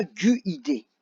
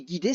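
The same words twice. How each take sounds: First: "gu-I-D" as "gu-i-dé", with a separate French u after hard g; U wrongly sounded. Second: Said in the usual way. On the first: Shown as a demonstration. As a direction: slowly split "gu-I-D" into gu, i, dé. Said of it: "là, on dit pas". (« gu-I-D » lentement, en prononçant le u : gu-i-dé) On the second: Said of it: "On dit guider".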